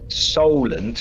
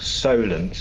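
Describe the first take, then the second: First: The first syllable sounds like 'sol'. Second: The first syllable sounds like 'so'. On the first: "Solent as in sol" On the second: "Solent as in so"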